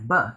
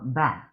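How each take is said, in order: First: The vowel is a short, weak 'uh' sound. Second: The vowel is a full, clear 'a' sound. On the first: The speaker calls it right. "the A makes a schwa sound instead of an A sound" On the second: The speaker calls it wrong. "instead of ba"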